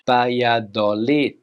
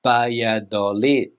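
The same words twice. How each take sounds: First: It is said with Spanish pronunciation. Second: It is said with Spanish pronunciation.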